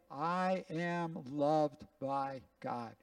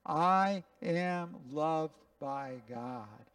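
First: Each word slow and deliberate; a pastor leading the room in a slow confession; slow recitation. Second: Slow, deliberate, each word weighed; slow recitation together. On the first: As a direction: say it slowly so all can follow. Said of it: "Let's just say this together". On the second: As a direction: repeat it slowly with everyone. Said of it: "Can you say it with me?". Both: Shown as a demonstration.

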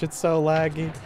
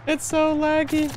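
First: Said in the usual way. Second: High, slow whine; high whiny voice. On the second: Pretend. Repeats line in new voice.

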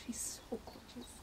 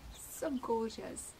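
First: Soft whisper of delight; hushed real awe; whispered admiration. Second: Said in the usual way. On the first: Real, not acted. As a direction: breathe it out in wonder. Whispered then said aloud.

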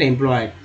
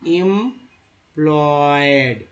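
First: Said in the usual way. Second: "employed" stretched very slowly, part by part; slow sounding-out. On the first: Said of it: "ईडीएन employed". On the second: Shown as a demonstration. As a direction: teach "employed" with each syllable drawn long. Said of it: "जैसे ENT को एंट बोलते हैं". ("Employed" बहुत खींचकर, हिस्सों में)

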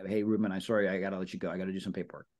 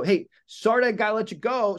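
First: Low, softer mumbled excuse; weak excuse. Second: Higher, louder, bright hurry-off; upbeat excuse. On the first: Agent giving a vague paperwork excuse to friend, soft and low. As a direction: trail off like a forgettable excuse. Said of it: "if you say". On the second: Agent cutting the call short for real estate work, upbeat and higher. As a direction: sound busy and in demand. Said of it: "it's gotta scream that". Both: Shown as a demonstration.

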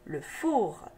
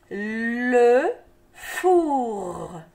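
First: Said in the usual way. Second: "Le four" stretched, with a long final R; sounded out. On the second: Shown as a demonstration. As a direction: draw out "Le", pause, then "four" held into its R. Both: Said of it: "n'oublie pas le R".

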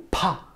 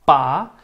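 First: "pa" with a puff of air after the p; aspirated PA. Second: "pa" with a tight, strong p and no puff; tense PA. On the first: Teacher telling students to release air, aspirated pa. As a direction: let air burst out on pa, short vowel. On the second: Teacher showing students the double consonant, tense pa. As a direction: press the p hard, as in Spanish "para". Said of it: "más fuerte". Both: Shown as a demonstration.

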